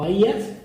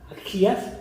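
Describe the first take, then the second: First: The middle consonant is silent. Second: The middle consonant is a harsh throat sound.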